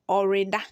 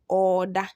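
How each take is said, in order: First: The word keeps the re syllable. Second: The re becomes a long doubled o vowel. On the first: "example number five says" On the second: "Instead of the re, it will be double or"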